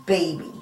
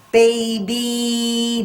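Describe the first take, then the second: First: Said in the usual way. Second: Put-on "Baby" higher, with the final ee held long; drawn-out final E. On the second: Shown as a demonstration. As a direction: stretch the ee ending of "Baby" for the listener. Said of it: "do you hear the E?".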